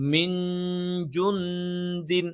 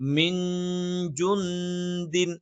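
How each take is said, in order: First: The n sounds are hidden and nasalized. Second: The same.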